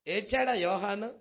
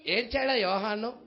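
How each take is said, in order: Both takes have the same delivery.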